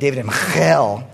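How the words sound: The name is said with a Hebrew pronunciation. The speaker calls it right. "you got to say it with a Hebrew accent so it sounds right"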